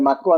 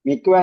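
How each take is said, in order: First: The first vowel is an 'a' sound. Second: The first vowel is an 'i' sound. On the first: The speaker calls it right. "മക്കുവ എന്നാണ് പറയേണ്ടത്" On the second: The speaker calls it wrong. "മിക്കുവ എന്നല്ല പറയേണ്ടത്"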